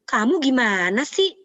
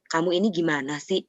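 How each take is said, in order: First: It is said with a high, raised pitch. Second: It is said with a lower, calmer pitch.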